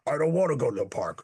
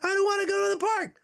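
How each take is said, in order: First: It is said calmly at its normal pitch. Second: It is said emotionally at a raised pitch.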